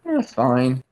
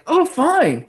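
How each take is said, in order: First: It is said in a gloomy, Eeyore-like tone. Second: It is said in an upbeat, cheerful tone.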